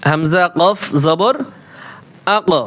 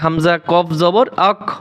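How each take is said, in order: First: The final consonant is released with an echoing bounce. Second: The final consonant is cut off without any bounce. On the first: The speaker calls it right. "কলকলা করে পড়ি, শুদ্ধ উচ্চারণটা করি" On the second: The speaker calls it wrong. "কলকলা ছাড়া পড়ি ... অশুদ্ধ"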